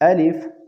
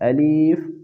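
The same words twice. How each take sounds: First: The word is said quickly with a short vowel. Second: The middle vowel is drawn out like 'ee'. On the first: The speaker calls it right. "इसको जल्दी के साथ पढ़े" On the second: The speaker calls it wrong. "या का इजाफा करके इसी तरह पढ़ते हैं"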